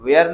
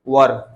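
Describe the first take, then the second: First: The word rhymes with 'air', like 'wear'. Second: The word has a short central vowel, like 'wur'. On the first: The speaker calls it wrong. "अधिकांश बच्चे इसको पढ़ते हैं दे वेयर going, वेयर नहीं" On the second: The speaker calls it right. "इसका शुद्ध उच्चारण क्या है? वर"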